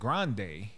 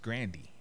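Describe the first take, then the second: First: The name ends with an 'ay' sound. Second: The name ends with an 'ee' sound. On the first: This is the stage name version. "they started pronouncing it Grande" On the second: This is how the family says it. "in the family it's pronounced [name]"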